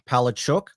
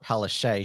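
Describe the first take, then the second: First: The surname is said with Polish sounds. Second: The surname is said with English sounds. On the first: "that's actually, I think the Polish pronunciation of it" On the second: "not Palaszczuk"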